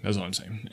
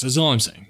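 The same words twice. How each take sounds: First: That's all I'm saying repeated much softer, trailing off. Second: Said in the usual way. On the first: Real, not acted. Host softly repeating his point to listeners, much softer. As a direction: drop it to an aside.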